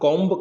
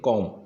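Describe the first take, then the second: First: The final b is pronounced. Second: The final b is silent. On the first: The speaker calls it wrong. "लेकिन generally इसका उच्चारण हम कॉम्ब कर देते हैं ... लेकिन वो गलत हो जाता है" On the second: The speaker calls it right. "इसका हम उच्चारण करते हैं कॉम"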